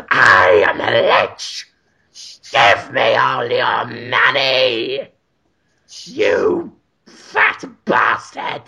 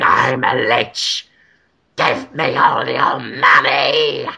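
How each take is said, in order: First: Low, slow undead lich shouting; shouted lich voice. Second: Low, slow undead lich voice; slow, low ghoulish demand. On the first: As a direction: bellow it like a rotting lich. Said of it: "Got better the longer you did it". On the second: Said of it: "It's a great lich voice". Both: Pretend.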